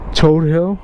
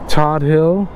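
First: The first word has a long 'oh' vowel. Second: The first word has a short 'o' vowel. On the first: "or if you choose, Toad Hill" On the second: "this to me is the infamous Todd Hill"

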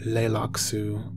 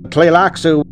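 First: The word begins directly with an 'l' sound. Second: The word begins with a 't' sound before the 'l'. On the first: The speaker calls it wrong. "I've heard many people pronounce it Leilaksu, but unfortunately that isn't the way" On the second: The speaker calls it right. "it is pronounced Tlilaksu or Tleilaksu"

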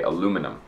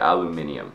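First: The word ends in '-num' with no extra 'ee' syllable. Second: The word ends in '-ium' with an extra 'ee' syllable. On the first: This is how Canadians and Americans say it. "we say aluminum. We don't say the eum" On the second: This is how British people say it. "English people, like British people, say aluminium"

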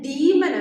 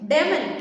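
First: The first vowel is a long ee sound. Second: The first vowel is a short eh sound. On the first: The speaker calls it right. "ഇതിൻ്റെ ശരിക്കുള്ള pronunciation വന്നിട്ട് ഡീമൻ എന്നാണ്" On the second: The speaker calls it wrong. "ഡെമൻ എന്ന് pronounce ചെയ്യാനുള്ള ഒരു tendency"

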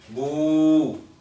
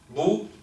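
First: The vowel is held long. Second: The vowel is short.

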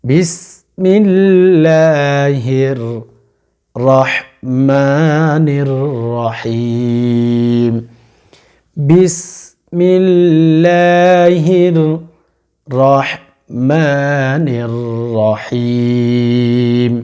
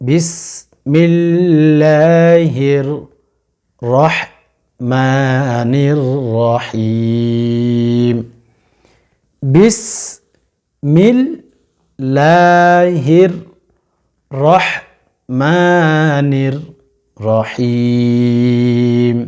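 Both takes have the same delivery.

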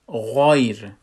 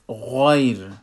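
The two takes are said the same way.

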